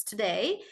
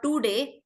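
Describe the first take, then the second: First: Today as "tuh-DAY", light English T; corrected English version. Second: Today as "TOO-dey", hard curled T and D; wrong Indian version. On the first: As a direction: say today softly with unstressed first syllable. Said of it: "it's today". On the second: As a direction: say today with retroflex Indian consonants. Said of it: "it's not today". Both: Shown as a demonstration.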